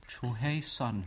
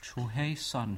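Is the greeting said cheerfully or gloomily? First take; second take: gloomily; gloomily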